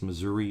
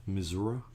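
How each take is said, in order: First: Missouri ending in an ee sound; standard pronunciation. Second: Missouri ending in uh, mi-ZOO-ruh; insisted local pronunciation. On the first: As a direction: say Missouri as mi-ZOO-ree. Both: Shown as a demonstration. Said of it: "is pronounced Missouri".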